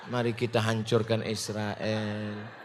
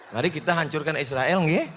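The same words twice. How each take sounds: First: Mock-gentle, very soft, low and slow; lemah lembut dibuat-buat. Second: Soft, quicker, rising mock-polite request; lemah lembut dibuat-buat. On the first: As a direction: drag it out in a tiny meek voice. (sangat pelan dan rendah, pura-pura lembut) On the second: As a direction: ask it meekly, lifting at the end. (ajakan halus agak cepat, pura-pura santun) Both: Shown as a demonstration. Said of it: "mau ngomongnya lemah lembut".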